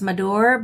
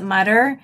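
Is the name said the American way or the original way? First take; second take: original; American. First: The name has its original, non-American pronunciation. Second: The name has an American English pronunciation. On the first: "it's actually pronounced Madur" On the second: "I pronounce it Mutter, ... but I'm American"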